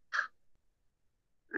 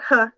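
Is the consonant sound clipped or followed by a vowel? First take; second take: clipped; vowel. First: The consonant is clipped with no vowel after. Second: The consonant is followed by a short vowel. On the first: The speaker calls it right. "it's huh" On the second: The speaker calls it wrong. "it's not huh"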